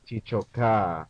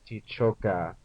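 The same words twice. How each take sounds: First: A vowel in the word is drawn out long. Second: The vowels in the word are kept short. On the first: We cry. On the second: You cry.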